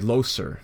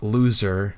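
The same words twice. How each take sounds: First: The vowels are said just as spelled. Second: The vowel sounds like modern English pronunciation. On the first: This is how it was read before the vowel shift. "you would say loser, because that's how it's written" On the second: This is how people say it today. "instead of saying like loser"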